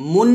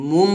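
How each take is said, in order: First: "মুন" ending on a clear n; wrong nun ending. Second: "মুম" ending on a lip-closed m, not n; correct mim ending. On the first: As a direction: show "মুন" with tongue-tip n at the end. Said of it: "বলা যাবে না". ("মুন", শেষে স্পষ্ট নুন) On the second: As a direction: close the lips to finish "মুম". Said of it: "মুম বলতে হবে". ("মুম", শেষে মিমের উচ্চারণ) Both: Shown as a demonstration.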